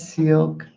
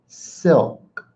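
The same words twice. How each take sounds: First: The vowel is a long 'ee' sound. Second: The vowel is a short 'i' sound. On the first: The speaker calls it wrong. "It's not an E. It's not silk" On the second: The speaker calls it right. "That's how the word is pronounced"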